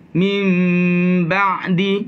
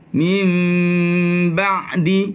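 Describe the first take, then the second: The two takes are said the same way.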